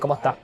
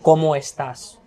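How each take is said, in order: First: The final s sound is dropped. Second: The final s sound is clearly pronounced. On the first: "We say" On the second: "we in Almeria we don't say"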